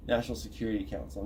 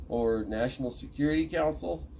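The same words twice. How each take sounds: First: Said in the usual way. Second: Security Council with a questioning rise; tentative rising guess; unsure question. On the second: Shown as a demonstration. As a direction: ask it, unsure which name is right. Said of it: "I think?".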